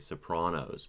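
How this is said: The word is said with an Italian pronunciation. "might use their native pronunciation to say Sopranos"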